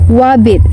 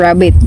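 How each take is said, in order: First: The word begins with a W sound. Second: The word begins with an R sound. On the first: The speaker calls it wrong. "wabbit instead of saying rabbit" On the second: The speaker calls it right. "instead of saying rabbit"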